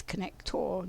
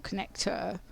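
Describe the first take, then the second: First: "connector" with a full, weighted -or ending; emphasised connector. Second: Said in the usual way. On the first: Retold or imitated. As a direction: say "connector" with the last syllable sounded out as TOR. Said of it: "he always says connector, not connector". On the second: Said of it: "that's his emphasis of the connector".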